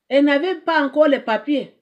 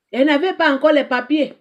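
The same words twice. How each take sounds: The two takes are said the same way.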